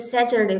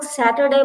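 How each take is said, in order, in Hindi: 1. यह ब्रिटिश लहजे में बोला गया है। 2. यह अमेरिकन लहजे में बोला गया है। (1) "ये जो ब्रिटिश वाले हैं, ये सैचरडे बोलते हैं" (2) "वो लोग सैटरडे बोलते हैं"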